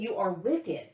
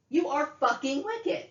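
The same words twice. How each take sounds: First: Controlled, falling accusation; angry accusation. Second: High-pitched, incredulous fury; escalated angry accusation. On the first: Woman accusing her mother, contained anger. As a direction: state the condemnation firmly. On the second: Woman accusing her mother, outraged anger. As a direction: let outrage lift the whole voice. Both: Real, not acted.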